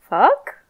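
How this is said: It sounds inquisitive.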